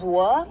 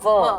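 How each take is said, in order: First: The word begins with a w sound. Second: The word begins with a v sound. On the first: "W is were" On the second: "V is were"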